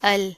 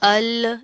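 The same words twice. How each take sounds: First: The L is light and plain, without a bounce. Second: The L ends with an echoing bounce. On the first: The speaker calls it right. "Simple, इसको आपने बारीक पढ़ना है" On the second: The speaker calls it wrong. "इस तरह भी नहीं करना"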